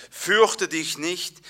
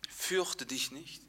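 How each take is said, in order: First: Louder, slow solemn proclamation; proclaimed reading. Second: Soft, slow and comforting; calm the kneeling man gently; tender king. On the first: Acted. Preacher reading the king's words aloud, slow and louder. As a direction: read it out as scripture. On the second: Retold or imitated. King soothing the kneeling cripple, soft and slow. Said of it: "der König sagt".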